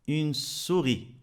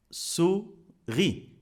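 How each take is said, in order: First: Said in the usual way. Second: "Souris" as sou, pause, ri; teacher's syllable split, sou... ri in "Souris". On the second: Shown as a demonstration. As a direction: break "Souris" slowly into two separate beats. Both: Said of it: "Deux syllabes".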